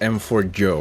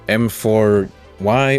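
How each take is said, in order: First: The last letter is said like 'joe'. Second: The last letter is said like 'why'. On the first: "M four Y or M four Joe, we're not entirely sure how to say it" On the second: "M four Y or M four Joe, we're not entirely sure how to say it"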